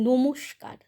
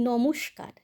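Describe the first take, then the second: Both takes have the same delivery.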